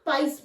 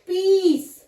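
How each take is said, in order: First: The vowel is an eye sound. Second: The vowel is a long ee sound. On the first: The speaker calls it wrong. "ना पाइस बोल रहे हैं" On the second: The speaker calls it right. "हम इसको बोल रहे हैं पीस"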